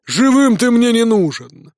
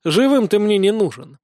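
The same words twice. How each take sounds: First: Slow, higher-pitched vengeful shout; villain pronouncing doom, slowly; merciless battle cry. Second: Mildly theatrical mocking repeat; understated pompous death sentence; grandly pompous echo. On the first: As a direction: draw out the death sentence. Enemy roars before killing blow. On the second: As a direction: echo his threat with pathos. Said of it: "пафосно повторил за ним". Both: A narrator's reading.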